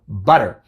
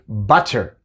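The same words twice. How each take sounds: First: The T is not pronounced as a full T. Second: The T is pronounced clearly as a full T. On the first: This is the normal everyday pronunciation. "Pero normalmente digo" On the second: The speaker is emphasizing or speaking slowly to be understood. "Si quiero dar énfasis o si quiero enseñarle a alguien o hablar lento"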